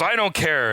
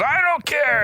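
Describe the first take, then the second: First: Said in the usual way. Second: Pitched way up, louder, yelling back; hammed-up yell of I don't care; escalating mock shout. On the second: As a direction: raise it higher as the fight escalates. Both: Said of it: "they keep escalating it".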